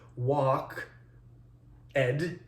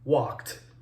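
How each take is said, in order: First: The ending is a separate second syllable. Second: The ending joins the word in one syllable. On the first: The speaker calls it wrong. "are not pronounced that way" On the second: The speaker calls it right. "as if there's a T there instead of an E D"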